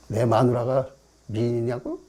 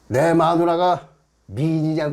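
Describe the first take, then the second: First: It is delivered small and restrained, screen style. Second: It is delivered big and loud, stage style.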